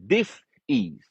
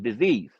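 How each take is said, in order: First: It is split into two separate parts. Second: It is said as one smooth, linked word. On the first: A lack of ease in the body. The speaker calls it right. "the word really should be pronounced as dis-ease" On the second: The ordinary word for an illness. The speaker calls it wrong. "they told you to pronounce the word as disease"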